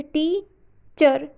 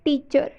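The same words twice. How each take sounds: First: teacher broken slowly into टी, pause, चर; split into two syllables. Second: Said in the usual way. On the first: Shown as a demonstration. Teacher showing viewers the syllables, teacher slowly split as टी — चर. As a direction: say teacher in two separate parts, stressing टी. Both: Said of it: "इसको दो हिस्सों में divide करें".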